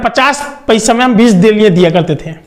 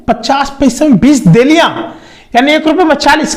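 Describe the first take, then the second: First: Said in the usual way. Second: Higher-pitched, amazed repeat of the price; surprised echo. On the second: Retold or imitated. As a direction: echo it back in retold disbelief. सस्ता दाम सुनकर हैरानी से दोहराना. (हैरानी से दोहराते हुए)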